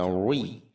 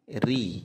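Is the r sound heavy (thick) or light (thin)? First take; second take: thick; thin. First: The r is pronounced heavy and thick. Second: The r is pronounced light and thin. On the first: The speaker calls it wrong. "ri jangan dibaca ri" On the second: The speaker calls it right. "tarqiq tipis"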